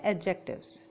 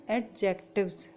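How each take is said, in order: First: "एडजेक्टिव्स" with a silent D; correct pronunciation. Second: "एडजेक्टिव्स" with the D sounded before the J; wrong pronunciation. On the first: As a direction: say "एडजेक्टिव्स" as a-jectives, straight into the J. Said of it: "इसमें डी silent होता है". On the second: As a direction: say "एडजेक्टिव्स" as ad-jectives, D audible. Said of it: "ये गलत pronunciation है". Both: Shown as a demonstration.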